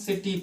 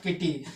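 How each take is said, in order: First: The word begins with an s sound. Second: The word begins with a k sound. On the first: The speaker calls it right. "आई लगा होने के कारण सा से कर रहे हैं" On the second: The speaker calls it wrong. "Not किटी"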